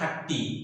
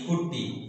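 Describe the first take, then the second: First: The first vowel is an open 'a' sound. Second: The first vowel is a short 'u' sound. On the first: This is how it is said in English. "English रे सेटा आछि pronunciation" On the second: This is how it is said in Odia. "Odia रे आछि"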